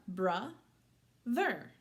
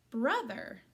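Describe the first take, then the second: First: "bruh" rising, a long gap, then "ther"; syllable by syllable. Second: Said in the usual way. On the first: Shown as a demonstration. Teacher setting up syllables to join, split apart. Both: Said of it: "Put those syllables together".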